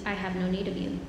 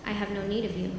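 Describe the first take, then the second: No difference in how they are said.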